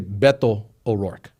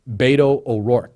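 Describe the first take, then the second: First: The first vowel of Beto sounds like 'eh'. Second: The first vowel of Beto sounds like 'ay'. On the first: It is harder to say. "It's harder to say" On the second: It is easier to say. "make the E the hard A"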